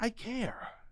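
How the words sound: It is whispered quietly. "And then you whisper the same exact thing to you"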